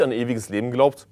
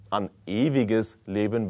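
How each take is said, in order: First: Said in the usual way. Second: Ewiges drawn out slowly and weighted; stress on ewiges. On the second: Shown as a demonstration. Preacher stressing ewiges to his congregation, slow deliberate stress. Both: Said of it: "Betonung auf ewig".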